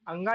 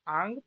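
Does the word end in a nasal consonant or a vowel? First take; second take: vowel; nasal consonant. First: The word ends with a full 'a' vowel. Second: The word ends on the nasal consonant. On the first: The speaker calls it wrong. "अंगा नहीं पढ़ेंगे" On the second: The speaker calls it right. "उसे nga पढ़ेंगे"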